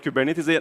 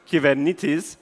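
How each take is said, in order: First: The word is said with English pronunciation. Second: The word is said with Greek pronunciation. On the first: The speaker calls it wrong. "I guess it came from the U S, and everyone started calling it Kubernetes" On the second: The speaker calls it right. "in Greek, the right way of saying Kubernetes is Kybernetes"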